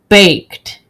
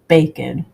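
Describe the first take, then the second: First: It is said as one syllable. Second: It is said as two syllables, like naked. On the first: The speaker calls it right. "baked is not pronounced" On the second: The speaker calls it wrong. "why is naked pronounced naked, but baked is not pronounced baked"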